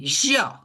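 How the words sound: It is said the Argentine way, forcefully. "they say yo"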